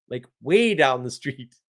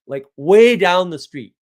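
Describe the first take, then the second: First: Said in the usual way. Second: "way" stretched out and punched loud, slowed right down; emphatic way. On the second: Retold or imitated. Telling how far the uncle threw the keys, with a loud drawn-out "way". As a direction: lean hard on "way" as if the keys flew forever.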